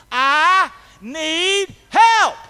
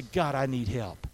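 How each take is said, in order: First: Slow, high, loud cry to God. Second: Low, slow prayer for help; honest, sincere plea. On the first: Retold or imitated. Preacher has congregation echo his cry to the Lord, crying out. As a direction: cry out each word, long and loud. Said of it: "I cried out to the Lord". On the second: Acted. Preacher models crying out to God, low and sincere. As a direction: drop the pitch and plead sincerely. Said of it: "in honesty and sincerity".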